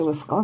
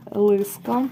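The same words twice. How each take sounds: First: Лиска stressed on the final А, лис-КА; tentative лиска, stress moved to the end; stress on last syllable. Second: Лиска stressed on the first syllable, ЛИ-ска. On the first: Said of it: "якщо десь неправильно наголос ставлю". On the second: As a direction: lean on the opening ЛИ in Лиска. First guess at the word's stress. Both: Real, not acted.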